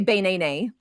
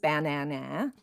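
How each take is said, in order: First: Each vowel is said like its letter name. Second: Each vowel is said as a short a. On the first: "if each of the vowel letters in banana said their names" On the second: "with all the A's saying their sounds"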